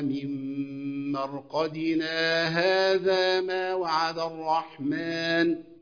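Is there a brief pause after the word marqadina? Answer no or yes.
no. The words run on with no stop. "بعد ما السكت"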